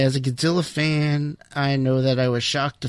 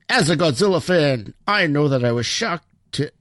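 First: It is spoken in the speaker's normal accent. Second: It is spoken in a put-on Irish accent.

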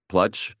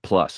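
First: The word ends with a 'ch' sound. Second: The word ends with an 's' sound. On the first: The speaker calls it wrong. "Plutch, if you want it" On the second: The speaker calls it right. "plus is really how you say it"

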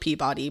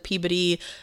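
First: It is said in a non-Massachusetts pronunciation. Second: It is said in the Massachusetts pronunciation.

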